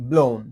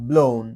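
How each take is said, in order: Both takes have the same delivery.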